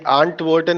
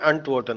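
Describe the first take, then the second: First: The first vowel is long, like 'aa'. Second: The first vowel is short, like 'a'. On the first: The speaker calls it wrong. "ये आंट Wharton नहीं होगा" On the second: The speaker calls it right. "अंट वॉर्टन होगा"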